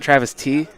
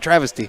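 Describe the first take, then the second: First: The stress is on the last syllable. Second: The stress is on the first syllable. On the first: The speaker calls it wrong. "not Travis T" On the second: The speaker calls it right. "Like the word, like oh, that was a travesty"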